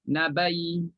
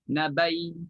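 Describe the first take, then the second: No difference in how they are said.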